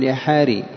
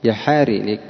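First: The name ends in an i vowel. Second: The name ends in an i vowel.

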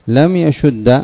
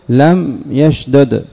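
First: The two d sounds merge into one doubled d. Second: The two d sounds are pronounced separately.

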